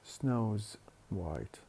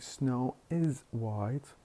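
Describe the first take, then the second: First: The 'is' shrinks to an s sound on 'snow'. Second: The word 'is' is said as a full syllable. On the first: "we drop the vowel I and we attach the se to the subject"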